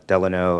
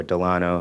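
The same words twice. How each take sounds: First: Delano as DEL-uh-no; first-syllable stress. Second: Delano as duh-LAH-no; second-syllable stress. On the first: City official giving street name his way, Delano as DEL-uh-no. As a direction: say Delano with stress up front and a weak middle vowel. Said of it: "but I say Delano". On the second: City official offering the other street pronunciation, Delano as duh-LAH-no. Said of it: "how you wanna say it". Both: Shown as a demonstration.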